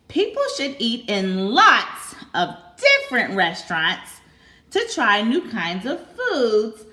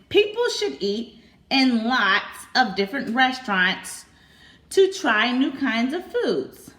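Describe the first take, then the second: First: It is read excitedly, with lots and different stressed. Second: It is read in a plain, flat voice.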